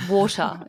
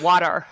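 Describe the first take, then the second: First: "Water" in an Australian accent, wɔtə; Australian "Water" with open o. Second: "water" in an American accent, wɑtər; American "water", louder, with flat a. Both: Shown as a demonstration. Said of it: "instead of".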